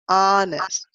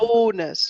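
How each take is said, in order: First: The first vowel sounds like 'ah'. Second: The first vowel sounds like 'oh'. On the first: The speaker calls it right. "and it's honest" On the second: The speaker calls it wrong. "You said"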